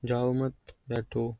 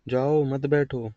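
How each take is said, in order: First: Slow, soft जाओ मत, break, then बैठो; pause after मत. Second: Slow जाओ, break, then मत बैठो together; pause after जाओ. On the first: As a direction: join मत to जाओ and set बैठो apart. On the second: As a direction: set जाओ apart and join मत to बैठो. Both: Shown as a demonstration. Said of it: "या दो तरीके से".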